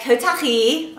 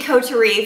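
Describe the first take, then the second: First: The name is said with a French accent. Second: The name is said with a plain English accent. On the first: "like in a French accent" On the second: "for us regular people"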